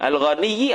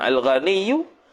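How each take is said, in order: First: The word ends with an i vowel. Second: The word ends with a u vowel. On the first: The speaker calls it right. "patutnya al-ghaniyyi" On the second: The speaker calls it wrong. "jadi baris tu tak kena"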